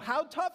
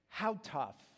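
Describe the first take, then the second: First: It is said with a louder, raised voice. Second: It is said at a normal, softer volume.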